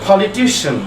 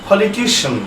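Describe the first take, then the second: The two takes are said the same way.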